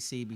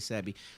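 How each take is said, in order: First: The name sounds like the letters C and B. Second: The name is said as the word Sebi. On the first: This is the speaker's own pronunciation. "I say C B" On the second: This is how some other people pronounce it. "Some people say Sebi"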